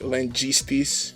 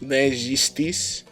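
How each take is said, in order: First: The first consonant is a hard j, as in jam. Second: The first consonant is a soft zh, as in measure. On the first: The speaker calls it wrong. "It's not J like" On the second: The speaker calls it right. "It is"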